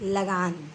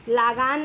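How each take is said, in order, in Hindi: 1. पहला स्वर छोटा है। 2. पहला स्वर लंबा है। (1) "बल्कि लगान" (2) "लागान नहीं"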